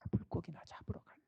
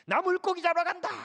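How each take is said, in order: First: It is said in a dejected, discouraged tone. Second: It is said in an excited, cheerful tone. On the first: "아주 의기소침해서 한 말로 들려요" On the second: "아주 신나서 한다고 한번 해볼게요"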